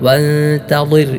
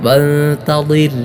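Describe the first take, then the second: The two takes are said the same way.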